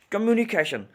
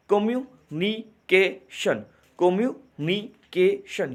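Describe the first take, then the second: First: Said in the usual way. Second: कम्युनिकेशन sounded out slowly, com-mu-ni-ca-tion; slow syllable demo. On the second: Shown as a demonstration. To students, teacher sounding out syllables slowly. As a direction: stretch कम्युनिकेशन into four clear syllables. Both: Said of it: "अब यहाँ पे देखिएगा गौर से".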